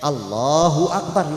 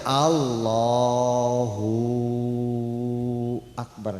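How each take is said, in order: First: The vowels are kept short. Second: A vowel is stretched out long. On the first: The intention was finished before saying it. The speaker calls it right. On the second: The speaker is still finishing the intention while saying it. The speaker calls it wrong.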